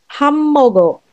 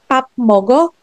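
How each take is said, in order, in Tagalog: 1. Ang unang pantig ay nagtatapos sa tunog m. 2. Ang unang pantig ay nagtatapos sa tunog p. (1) "but it's hammogo" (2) "this is not pop mogo"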